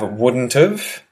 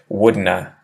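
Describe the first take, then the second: First: Contracted, with have reduced to a weak sound. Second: Reduced to two syllables, like wouldna. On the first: "not written but spoken" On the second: "if someone has a really strong Australian accent"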